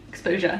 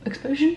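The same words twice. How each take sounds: First: "Exposure" dropped into a falling end; settled statement. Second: "Exposure" lifted high into a question. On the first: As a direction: say "Exposure" as a statement, tune going down. Repeats the word as statement. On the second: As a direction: say "Exposure" with a doubtful rising end. Doubting her own word, questioning. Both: Real, not acted.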